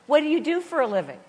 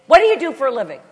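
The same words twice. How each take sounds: First: Said in the usual way. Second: Loud, raised, rapid-fire question; intense New Yorker. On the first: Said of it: "It's very relaxed". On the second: Retold or imitated. New York passenger asking about her job, imitated intense fast talk. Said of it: "They talk really fast".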